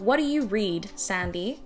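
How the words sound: The vowel in read is short and British-sounding. "that sounded way too British"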